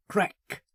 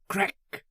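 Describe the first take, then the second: No difference in how they are said.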